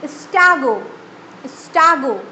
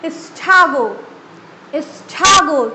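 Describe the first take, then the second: First: "स्टैगो" with a plain hard t; Indian pronunciation. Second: "स्टैगो" with t burst to aspirated th; busting sound. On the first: Teacher shows Indian stagger first. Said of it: "Indian". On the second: Teacher demos the busted t in stagger. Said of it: "टी बस्ट होके ठा में गया". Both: Shown as a demonstration.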